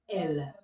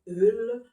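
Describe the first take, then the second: First: It is said with an open 'eh' vowel. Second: It is said with a neutral 'uh' vowel. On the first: The speaker calls it right. "on va plutôt dire elle" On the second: The speaker calls it wrong. "On va pas dire eul"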